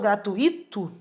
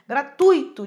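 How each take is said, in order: First: The stress falls on the syllable with 'i'. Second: The stress falls on the syllable 'tui'. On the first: The speaker calls it wrong. "Eu falo gratuito? Não" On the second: The speaker calls it right. "a sílaba tônica aí é o tui, né? E não só o i"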